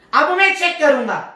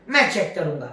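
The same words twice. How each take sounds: First: A higher, firmer restatement with میں stressed; firm declaration. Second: Said in the usual way. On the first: Acted. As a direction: hit میں hard, announcing the check. Solomon declaring he will verify.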